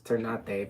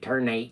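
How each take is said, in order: First: The word has a local, non-American pronunciation. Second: The word has a Southern American-style pronunciation. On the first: The speaker calls it right. "It's it's ternate" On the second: The speaker calls it wrong. "just sounds so southern. It's a very gringo way to say it"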